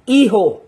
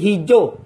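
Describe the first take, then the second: First: The middle consonant is a soft h sound. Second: The middle consonant is a dy sound. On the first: The speaker calls it right. "Iho po ang pagbigkas dyan ha" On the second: The speaker calls it wrong. "Hindi hidyo"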